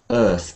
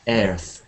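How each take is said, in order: First: The vowel sounds like the one in bird. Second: The vowel sounds like the one in chair. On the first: The speaker calls it right. "the key vowel sound here is like bird and sir" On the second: The speaker calls it wrong. "one of the most common mispronunciations ... Sounds a bit like chair"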